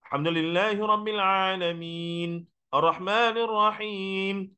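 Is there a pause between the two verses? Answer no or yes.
yes. There is a stop between the verses. It is recited carefully, stopping where it should. The speaker calls it right. "Tapi berhenti tepat-tepat yang sepatutnya"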